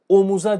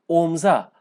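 First: The middle vowel is pronounced in full. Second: The middle vowel is dropped from the word. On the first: The speaker calls it wrong. "Siz omuza diyemezsiniz" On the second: The speaker calls it right. "ünlümüz düştü"

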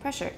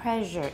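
First: The middle consonant is a voiceless hissing sh. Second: The middle consonant is a voiced buzzing zh. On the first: The speaker calls it right. "it has to be short because sh is voiceless" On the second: The speaker calls it wrong. "it's not pressure"

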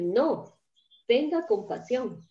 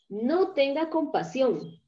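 First: There is a short pause after 'no'. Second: The words run together with no pause after 'no'. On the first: No; show compassion. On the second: Do not show compassion.

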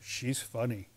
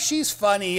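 First: It is said in a flat, wary tone. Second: It is said in a light, laughing tone. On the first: She is strange and a little unsettling. "They go, "Oh, she's funny."" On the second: She is humorous and makes people laugh. "They don't go, "Oh, she's funny, ha ha.""

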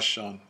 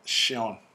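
First: The name is said as one syllable. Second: The name is said as two syllables, she-on. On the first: The speaker calls it wrong. "My name is not Sean" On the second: The speaker calls it right. "as in she and then on"

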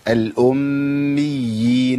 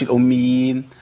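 First: The doubled consonant is held long. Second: The doubled consonant is cut short. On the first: The speaker calls it right. "ده عندي مشدد قبل الياء المشددة، يبقى لابد من بيان" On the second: The speaker calls it wrong. "ما اقولش"

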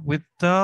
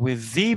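First: 'The' is said with a reduced 'thuh' vowel. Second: 'The' is said with a full 'thee' vowel. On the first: It simply refers to the name. "With the 했을 때는, 그냥 그 베이비스 네임이지만" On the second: The baby's name is being emphasized. "the라고 발음해야 될 거를 the라고 하는 거니까 이게 또 강조가 됩니다"

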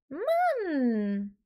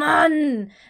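First: It is said high, in a light head voice. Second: It is said low, in a deep chest voice. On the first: "weil ich da keinen Druck hintersetze" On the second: "Ich könnte auch tief sagen"

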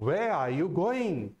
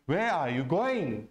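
First: Where and going are stressed; are you is light. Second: The same.

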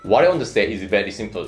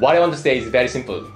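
First: The voice is pitched low. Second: The voice is pitched high. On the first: The speaker calls it right. "言わないといけないね" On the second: The speaker calls it wrong. "っていう風にな高く言っちゃいますよね"

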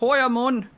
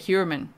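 First: The name is pronounced with German sounds. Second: The name is pronounced with American English sounds. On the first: "but I know, Heuermann" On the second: "in America they say Heuermann, so I'm saying it like that"

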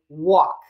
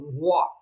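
First: It is said in an ordinary speaking voice. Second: It is said in a deep, monstrous voice.

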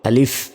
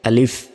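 First: The word ends with an f sound. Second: The same.

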